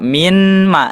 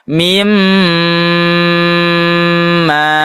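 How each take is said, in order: First: The n is said clearly before the m. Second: The n merges into a long nasal m. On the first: The speaker calls it wrong. "Tidak dibaca min ma" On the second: The speaker calls it right. "langsung dimasukkan"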